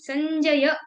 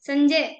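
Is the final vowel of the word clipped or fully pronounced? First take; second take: fully pronounced; clipped. First: The final vowel is fully pronounced. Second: The final vowel is clipped or dropped. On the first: The speaker calls it right. "संजय पूरा pronounce करना है" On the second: The speaker calls it wrong. "संजय ऐसा नहीं"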